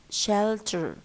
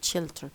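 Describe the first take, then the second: First: The first vowel is slightly more open. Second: The first vowel is close, like 'shilter'. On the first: The speaker calls it right. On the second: The speaker calls it wrong.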